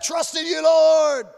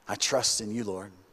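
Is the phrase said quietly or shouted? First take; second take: shouted; quiet. First: It is said loudly, as a shout. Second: It is said quietly and softly. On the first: Trust is proclaimed as a triumphant declaration. The speaker calls it wrong. "He's not shouting out" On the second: Trust is voiced from inside deep pain. The speaker calls it right. "I just read it like he's saying it like that"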